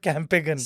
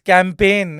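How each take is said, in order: First: A g sound is heard before the ending. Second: The word ends without a g sound. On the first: The speaker calls it wrong. "It's not कैंपेगन" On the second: The speaker calls it right. "It's कैंपेन"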